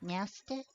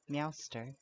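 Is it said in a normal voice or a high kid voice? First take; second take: kid voice; normal. First: It is said in a high little-kid voice. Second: It is said in a normal voice.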